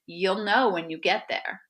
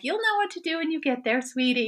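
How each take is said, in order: First: Said in the usual way. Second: High, fast, sing-song imitation of a sweet friend; mocking the friend. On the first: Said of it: "she said". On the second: Mocking friend's sweet phone advice, high sing-song. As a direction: parody the soothing advice with a lilting high voice. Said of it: "she's telling me".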